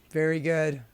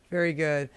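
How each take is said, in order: Both takes have the same delivery.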